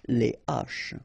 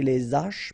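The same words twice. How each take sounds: First: The two words stay separate with no s sound. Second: The s sound links into the next word. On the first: The speaker calls it right. "but you say les H" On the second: The speaker calls it wrong. "you don't say les H"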